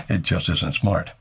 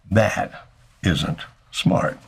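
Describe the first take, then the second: First: Chuckling "It just isn't smart"; a self-mocking, chuckled warning; rueful laugh. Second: "That isn't smart" drawn out very slowly; a dry, slow, firm warning; slow emphatic verdict. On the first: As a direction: laugh at yourself and say it slowly. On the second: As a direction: lean on every word, slowly. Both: Shown as a demonstration. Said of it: "I know that because I've done it".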